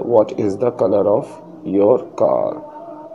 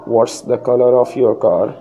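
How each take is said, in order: First: "Is" is said as a separate full word. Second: "Is" is shortened and joined onto "what".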